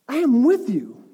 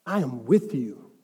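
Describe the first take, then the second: First: Higher, emphatic "I am with you"; forceful assurance. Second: Low, slow "I am with you"; solemn assurance. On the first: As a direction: proclaim "I am with you" with raised pitch. Same assurance repeated with force. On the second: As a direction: reassure deeply, stretching "with you". Voicing God's assurance to believers. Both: Acted.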